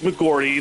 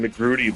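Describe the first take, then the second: First: The R sound comes after the vowel. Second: The R sound comes before the vowel. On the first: The speaker calls it right. "that's how you pronounce it" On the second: The speaker calls it wrong. "which makes no sense"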